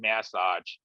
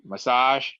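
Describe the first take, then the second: First: It is said the British way. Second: It is not said the British way.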